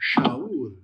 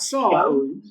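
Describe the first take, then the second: First: The name begins with an sh sound. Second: The name begins with an s sound. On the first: The speaker calls it right. "It's Shaul" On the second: The speaker calls it wrong. "It's not Saul"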